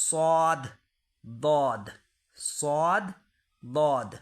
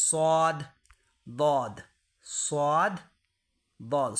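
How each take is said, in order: The two takes are said the same way.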